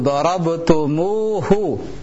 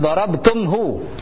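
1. Vokal u menghubungkan tum dan hu. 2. Tum langsung bersambung ke hu tanpa vokal. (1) "perlu huruf waw sebagai perantara antara tum dengan hu" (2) "Sehingga bukan dorabtumhu"

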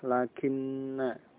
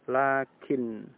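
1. N akhirnya ganda, berdengung, lalu diikuti bunyi a. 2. Kata ini berakhir dengan n tunggal yang pendek. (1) "kalau diucapkan ya ada dengan dengung atau runah" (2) "Tasdidnya dihilangkan. Jadi cukup dengan sukun"

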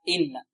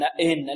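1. الكسرة خالصة، صوت نقي. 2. فيه ميل نحو الفتحة. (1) "لا الصحيح إن إن" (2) "يأتي بها غير خالصة، يعني فيها شيء من الفتح"

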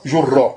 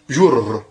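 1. Le mot finit par un a bref ajouté, une voyelle. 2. Le mot finit sur un r double, une consonne. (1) "On met le fatha" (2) "On se trouve avec deux ra, avec une sukun"

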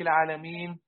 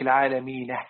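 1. تنتهي الكلمة بشكل عادي بدون هاء مضافة. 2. تنتهي الكلمة بهاء خفيفة مضافة. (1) "بدل يقول لك العالمين" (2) "بياتوا بهاء اسمها هاء سكت عند الوقف"

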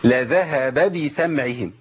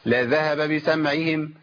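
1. كل باء لها حركة واضحة الشكل. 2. الباءان متداخلتان بحركات كسلانة. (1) "عندي باء مفتوحه وباء مكسوره" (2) "كسلان ان انا اعمل الحركات ديت"

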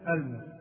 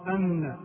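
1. النون قصيرة وغير مشدّدة. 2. النون مشدّدة ومطوّلة. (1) "والصواب أن يسكن النون" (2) "تشديد النون"

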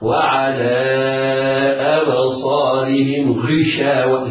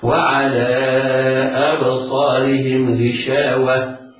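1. تُنطق الغين في الكلمة الأخيرة مفخّمة بشكل مبالغ فيه. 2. تُنطق الغين في الكلمة الأخيرة مفخّمة بشكل معتدل فقط. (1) "تبالغ في تفخيمها وتقول خطأ" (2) "تعطيها تفخيما نسبيا يليق بحركتها"

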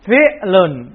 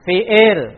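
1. Kata ini berakhir dengan bunyi -un. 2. Kata ini berakhir tanpa bunyi -un. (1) "Harusnya bacanya apa?" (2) "Tapi pengantarnya gimana?"

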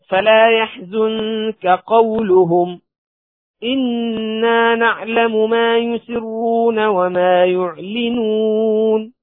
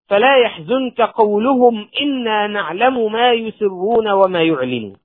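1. يوجد وقف بعد qawluhum. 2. الكلام يستمر دون وقف بعد qawluhum. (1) "تأمل في الوقف على كلمة فلا يحزنك قولهم، ثم البدء" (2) "لو لم تقف عند هذه الكلمة ووصلتها وقلت"

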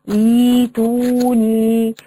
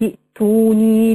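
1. بتبدأ لوحدها بمد ياء. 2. بتتوصل بالكلمة اللي قبلها من غير صوت في الأول. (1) "لو جيت أبتدي بكلمة ائتوني ... هتقلبيها حرف مد" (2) "لو أنا وصلت هسقط همزة الوسط"

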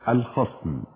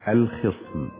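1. المقطع الأول فيه الحركة a (khasm). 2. المقطع الأول فيه الحركة i (khism). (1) "فالصحيح أن نقول الخصم" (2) "ولا نقول الخصم"

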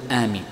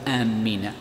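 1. صوت الميم قصير ومفرد. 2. صوت الميم مشدد ومطول. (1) "وإنما تقول آمين" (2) "فلا تقول آمين"

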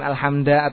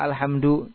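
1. Kata ini berakhir dengan vokal selain u. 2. Kata ini berakhir dengan vokal u. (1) "bukan alhamda" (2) "kenapa dibaca dhamma alhamdu"

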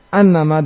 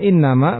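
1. Kata itu dimulai dengan vokal 'a'. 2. Kata itu dimulai dengan vokal 'i'.

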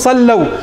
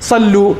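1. تنتهي الكلمة بصوت مركب 'aw'. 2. تنتهي الكلمة بحرف مد طويل 'oo'. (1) "تقول صلوا" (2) "لا تقول لي صلوا"

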